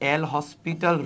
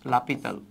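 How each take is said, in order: First: It is said as 'el hospital', with h and s. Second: It is said as 'lapital', with no h or s. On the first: This is how the name is written. "লেখা হয় এল হসপিটাল rule" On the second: This is how the name is really pronounced. "উচ্চারণটা হচ্ছে লাপিতাল"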